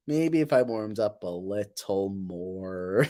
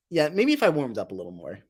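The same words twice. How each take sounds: First: Slow, lower, stretched words; silly drawn-out voice. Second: Said in the usual way. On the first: Pretend. Streamer joking about warming up the voice, slow silly drawl. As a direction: drag each word out playfully.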